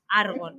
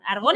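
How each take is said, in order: First: The stress is on the first syllable. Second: The stress is on the last syllable. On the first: It names the character. The speaker calls it right. "es Argon, ¿vale?" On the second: It names the chemical element. The speaker calls it wrong. "Argón es de la tabla periódica"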